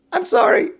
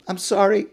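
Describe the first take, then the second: First: Laughing apology. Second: Said in the usual way. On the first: Acted. Thief laughing as he apologizes to the merchant. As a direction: giggle out the apology like a cheeky thief.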